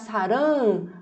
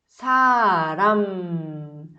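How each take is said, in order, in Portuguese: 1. A palavra termina com os lábios abertos. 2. A palavra termina com os lábios fechados no m. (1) "Se você abrir, se deixar saram, vai parecer amor" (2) "Percebe que eu fechei a minha boca, os lábios?"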